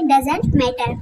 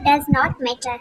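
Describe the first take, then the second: First: The words 'does not' are contracted to 'doesn't'. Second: The words 'does not' are said in full. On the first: "short form में क्या पढ़ेंगे" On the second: "डज नॉट पढ़ते हैं"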